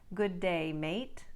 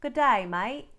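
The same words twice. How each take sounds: First: It is said in a neutral, non-Australian accent. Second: It is said in an Australian accent. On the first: "an expression like" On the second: "will become"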